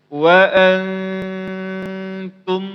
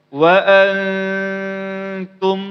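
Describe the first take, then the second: The two takes are said the same way.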